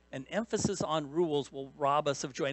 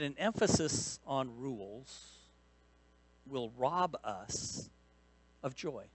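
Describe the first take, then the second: First: Said in the usual way. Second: "that an emphasis on rules will rob us of joy" drawn out very slowly, pausing before "rob us" and "of joy"; slow, deliberate emphasis. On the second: Shown as a demonstration. Preacher driving home his main point to the congregation, very slow and deliberate. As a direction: let each phrase land slowly, with pauses between.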